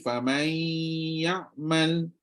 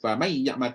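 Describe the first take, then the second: First: A nasal hum is held before ya'mal. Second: It merges straight into ya'mal without nasal hum. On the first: "kena bunyi" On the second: "tak ada langsung nun, hilang"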